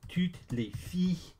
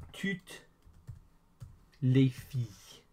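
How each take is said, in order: First: Said in the usual way. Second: Slow, with a long gap after toutes; word by word. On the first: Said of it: "is all the girls". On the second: Shown as a demonstration. Teacher models French for all the girls, word by word. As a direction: break it up slowly for learners. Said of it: "all the girls is".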